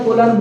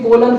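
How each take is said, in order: The two takes are said the same way.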